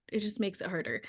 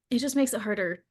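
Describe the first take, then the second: First: Drops to a near murmur on "It just makes it harder"; soft repeat. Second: Said in the usual way. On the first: Real, not acted. Repeating her point softly to the listener, quiet.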